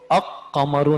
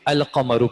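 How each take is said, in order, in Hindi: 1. L सुनाई नहीं देता; q दोहरा होता है। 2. एक q से पहले L बोला जाता है। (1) "इसको अक कमरु नहीं पढ़ा जा रहा" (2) "बल्कि अल कमरु पढ़ा जा रहा है"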